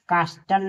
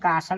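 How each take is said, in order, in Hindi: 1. "t" ध्वनि बोली जाती है। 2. "t" ध्वनि मौन है। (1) "यहाँ कास्टल नहीं" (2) "कासल पढ़ेंगे"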